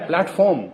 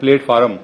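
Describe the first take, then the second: First: It is said in the standard English way. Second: It is said in the common local Urdu-speaker way. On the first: The speaker calls it right. "ये है प्लेटफॉर्म, P L A T" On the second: The speaker calls it wrong. "हम कहते हैं प्लेटफॉर्म"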